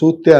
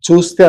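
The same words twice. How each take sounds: First: It is said with the Uttarandhra dialect pronunciation. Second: It is said with the standard Telugu pronunciation. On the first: The speaker calls it right. "చూస్తే అనాలి" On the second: The speaker calls it wrong. "చూస్తే అనకూడదు"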